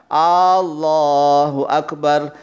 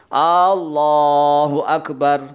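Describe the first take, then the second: The two takes are said the same way.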